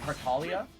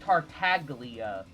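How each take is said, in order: First: The name is said in its intended pronunciation. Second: The name is said letter by letter as spelled. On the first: This is the proper way to say the name. The speaker calls it right. "I know it's supposed to be Tartaglia. That that's how the pronunciation is supposed to be" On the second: This is how the name looks when read. The speaker calls it wrong. "seeing Tartaglia because that's how it's physically spelled"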